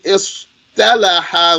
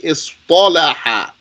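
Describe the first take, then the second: First: The t sound is light and plain. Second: The t sound is thick and emphatic. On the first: The speaker calls it wrong. "you don't say istalaha with a tat" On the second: The speaker calls it right. "Maintain the thickness and turn the tat into a paw"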